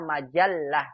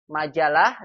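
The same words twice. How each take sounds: First: The l sound is doubled and held longer. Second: The l sound is short and single. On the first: This is the Arabic way of saying it. "dalam bahasa Arabnya majalah" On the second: This is the Indonesian way of saying it. "Majalah dalam bahasa kita"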